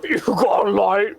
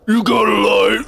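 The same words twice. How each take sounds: First: Higher mock smoker voice; smoker Patrick. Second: Higher, louder hammed-up smoker; smoker Patrick. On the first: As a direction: ask for a light as a cartoon smoker. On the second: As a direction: shout it as a cartoon smoker. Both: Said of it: "Patrick would sound like if he was a smoker".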